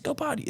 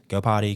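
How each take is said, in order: First: It is said in a lively, excited voice. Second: It is said in a flat, monotone voice. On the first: The moment is highly rewarding and exciting. The speaker calls it wrong. "high praise, ... like that" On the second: The moment is calm and boring, not rewarding. The speaker calls it right. "in a monotone voice"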